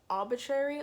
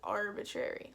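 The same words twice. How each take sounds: First: The first syllable sounds like 'aw' without r. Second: The first syllable sounds like 'ar' with r. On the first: The speaker calls it wrong. "like A U" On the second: The speaker calls it right. "like A R"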